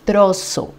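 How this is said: The z is pronounced as in Latin America. "nous, en Amérique latine, on va dire plutôt trozo"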